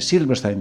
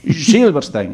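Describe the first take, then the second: First: The name is said with a plain Spanish s. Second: The name is said with a 'sh' sound. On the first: The speaker calls it wrong. "Y yo dije" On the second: The speaker calls it right. "pero en castellano no tenéis la shh"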